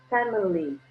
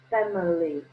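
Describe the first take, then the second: No difference in how they are said.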